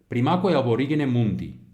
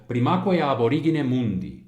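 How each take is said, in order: Both takes have the same delivery.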